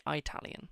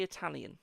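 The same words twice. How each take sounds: First: Italian said "Eye-talian"; American pronunciation. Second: Said in the usual way. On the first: Shown as a demonstration. Reader showing how the Americans say Italian, "Eye-talian" pronunciation. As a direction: open Italian with a long "eye" sound. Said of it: "as the Americans say".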